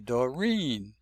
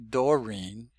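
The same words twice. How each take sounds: First: The stress is on the second syllable. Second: The stress is on the first syllable. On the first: The speaker calls it right. "we say Doreen. Stress is on the second syllable" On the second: The speaker calls it wrong. "We don't say Doreen"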